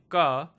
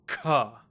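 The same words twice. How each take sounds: First: The k is said without a puff of breath. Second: The k is said with a strong puff of breath. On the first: "instead of saying ka" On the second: "you say ka, ka. You should feel a lot of breath coming out"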